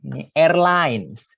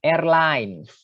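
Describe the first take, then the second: First: "airlines" said the wrong way; the mistaken reading of "airlines"; wrong pronunciation. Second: "Airlines" said the right way, as air-lines; the proper reading of "Airlines"; correct pronunciation. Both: Shown as a demonstration. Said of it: "bukan airlines".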